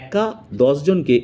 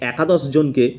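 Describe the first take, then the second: First: There is a short break after the first word. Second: The words run together without any break. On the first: One person challenges ten people. The speaker calls it right. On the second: It refers to eleven people. The speaker calls it wrong.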